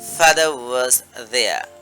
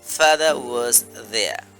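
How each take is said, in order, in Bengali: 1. 'was' আলাদাভাবে বলা হয়, তার 'w' উচ্চারণ সহ। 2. 'was' আলাদাভাবে বলা হয়, তার 'w' উচ্চারণ সহ।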